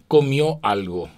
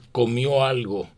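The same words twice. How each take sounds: First: The two words are said separately. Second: The two words are joined into one flow. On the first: The speaker calls it wrong. "no es" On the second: The speaker calls it right.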